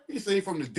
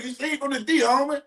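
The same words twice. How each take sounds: First: Said in the usual way. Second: High, bouncy callout of the comment; playful callout. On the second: Real, not acted. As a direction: toss it out high and teasing. Reading a viewer's comment aloud.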